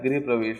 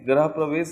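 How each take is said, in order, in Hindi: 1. पहला शब्द 'griha' की तरह बोला जाता है। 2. पहला शब्द 'graha' की तरह बोला जाता है। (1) "गृह प्रवेश होता है" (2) "गृह प्रवेश नहीं होता है"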